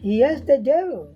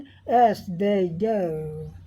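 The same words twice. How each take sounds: First: It is said quickly and compactly. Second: It is said slowly, in a British accent. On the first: "fast में" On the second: "slow British accent में"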